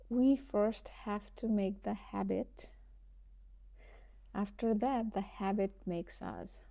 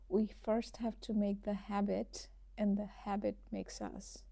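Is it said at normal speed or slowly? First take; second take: slowly; normal speed. First: It is said slowly. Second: It is said at normal speed.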